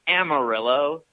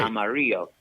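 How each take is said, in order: First: The double L is said as an L sound. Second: The double L is said as a Y sound. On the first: This is how local English speakers say it. "They're like, um, it's Amarillo" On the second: This follows Spanish pronunciation. "in Spanish, the double L is pronounced as a Y sound"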